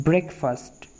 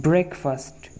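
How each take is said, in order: No difference in how they are said.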